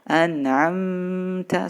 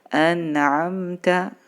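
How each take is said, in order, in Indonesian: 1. Mim tersembunyi dan berdengung sebelum ta. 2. Mim dibaca jelas sebelum ta. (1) "Tidak boleh kita baca an'amta, salah ya. Diikhfakan tidak boleh" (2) "Harus idhar jelas, idhar syafawi"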